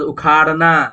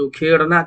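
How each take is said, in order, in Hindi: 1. दूसरा स्वर लंबी 'आ' ध्वनि है। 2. दूसरा स्वर 'ए' ध्वनि है। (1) "अलिफ है ना यहाँ पर" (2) "मजूल से उखेड़ना कर दिए"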